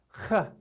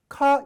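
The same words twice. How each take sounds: First: The k sound rasps deep in the throat. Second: The k sound is plain, from the mouth. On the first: The speaker calls it right. "가래를 뱉을 때 내는 소리처럼 목 깊은 곳에서 내는 소리" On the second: The speaker calls it wrong. "카는 카 이게 아니에요"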